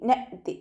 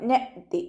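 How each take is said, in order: No difference in how they are said.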